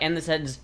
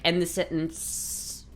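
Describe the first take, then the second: First: The voice falls firmly at the end. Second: The voice lifts lightly and airily at the end. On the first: The sentence sounds finished. "male voice is a very like end the sentence now ... down, like sentence ended" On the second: The sentence sounds open and light. "The female cadences are much more like ... wispy"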